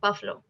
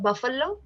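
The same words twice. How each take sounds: First: The stress falls on the first syllable. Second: The stress falls on a later syllable. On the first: The speaker calls it right. "So the main f- stress comes on f, buff" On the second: The speaker calls it wrong. "not buffalo"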